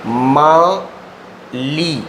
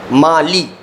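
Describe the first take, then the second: First: माली very slow, split as "मा ... ली"; drawn-out syllables. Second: Said in the usual way. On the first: Shown as a demonstration. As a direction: stretch Mali, pausing between its two syllables. Writes out the code word slowly. (माली को धीरे-धीरे, तोड़कर बोलें)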